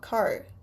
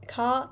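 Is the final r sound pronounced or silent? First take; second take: pronounced; silent. First: The final r sound is pronounced. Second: The final r sound is silent. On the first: "and not car" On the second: "non-rhotic accent is, well, when you pronounce car"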